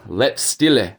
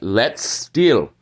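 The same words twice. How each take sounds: First: The term is said with English pronunciation. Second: The term is said with German pronunciation. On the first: The speaker calls it wrong. "not the let's steal" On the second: The speaker calls it right.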